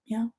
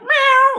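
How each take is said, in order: First: It is said weakly and quietly, without commitment. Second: It is said strongly, with full commitment.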